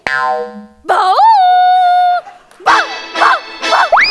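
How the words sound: The barking sounds like a sad dog.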